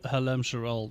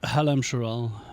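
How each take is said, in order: First: The stress is on the second syllable. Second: The stress is not on the second syllable.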